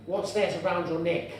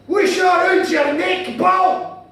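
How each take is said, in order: First: Said in the usual way. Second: Slow, loud Glaswegian shout; guttural Glaswegian. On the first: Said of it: "I will translate". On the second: Acted. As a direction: holler it high and drawn out in thick Glaswegian. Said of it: "then he said to me".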